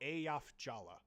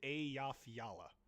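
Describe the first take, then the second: First: The second name begins with a J sound. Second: The second name begins with a Y sound. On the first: The speaker calls it right. "the second J is pronounced like a J" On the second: The speaker calls it wrong. "Or no"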